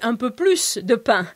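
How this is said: The S in plus is pronounced. "the southern way of saying things would be un peu plus de pain, s'il vous plaît, where we pronounce the S"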